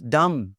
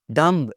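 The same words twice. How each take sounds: First: Dumb ending on m; silent B. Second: Dumb with a sounded final b; mispronounced B. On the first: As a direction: say dumb as dum. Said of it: "it's dumb". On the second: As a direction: end dumb on an audible b. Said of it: "it's not". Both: Shown as a demonstration.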